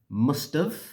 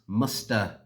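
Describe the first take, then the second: First: It ends with a short 'v' sound. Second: It ends in a weak 'uh' vowel. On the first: "The contracted form of this" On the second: "the reduced form is"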